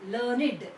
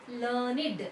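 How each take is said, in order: The two takes are said the same way.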